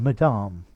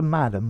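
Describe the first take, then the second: First: It is said with a French pronunciation. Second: It is said with an English pronunciation. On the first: "You could probably try it in French" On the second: "as opposed to madam"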